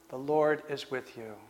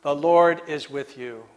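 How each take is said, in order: First: Much softer, lower and almost to himself; hushed echo. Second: Said in the usual way. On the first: Acted. Preacher repeating the angel's words to the congregation, hushed. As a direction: let the words sink in, barely spoken.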